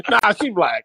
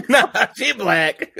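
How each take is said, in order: First: Said through a laugh; laughing quip. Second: Higher, louder, slow and laughing; laughing echo. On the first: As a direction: toss it off while laughing. Joking quip between friends. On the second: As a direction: echo the joke through big laughter. Repeats friend's joke laughing. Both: Acted.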